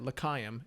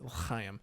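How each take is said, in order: First: The ch sound is soft and plain. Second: The ch sound is rasped in the throat. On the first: It would be a different word. The speaker calls it wrong. "instead of l'chaim" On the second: It is the intended word. The speaker calls it right. "That's how you have to say it"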